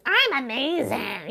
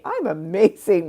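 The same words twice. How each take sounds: First: High, slow, sing-song fake cheer; mock-bright denial. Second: Said in the usual way. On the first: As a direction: chirp it like an obvious lie. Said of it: "you don't wanna lie and be like". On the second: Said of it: "There is a place for saying".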